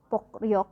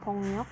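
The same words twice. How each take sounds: First: The word is pronounced exactly as it is spelled. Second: The word is pronounced with changed, linked sounds. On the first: "walaupun tulisannya 폭력 gitu ya" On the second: "ini dibacanya 폭력"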